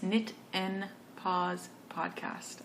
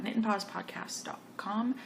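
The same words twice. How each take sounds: First: Slow, word-by-word "Knit and Pause Podcast"; careful slow repeat of the show's name; slowed right down. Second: Said in the usual way. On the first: Real, not acted. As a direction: say "Knit and Pause Podcast" slowly, each word set apart. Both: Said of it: "I am talking very fast".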